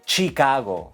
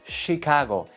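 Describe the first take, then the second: First: It begins with a hard ch sound. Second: It begins with a soft sh sound. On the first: The speaker calls it right. "La che es fuerte" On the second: The speaker calls it wrong. "no es Chicago"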